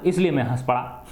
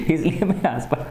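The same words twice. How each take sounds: First: Said in the usual way. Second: Words breaking into a small laugh. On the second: Acted. Teacher voicing the student who laughed at the joke, laughing. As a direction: say it through a light chuckle. Laughs, then repeats the line.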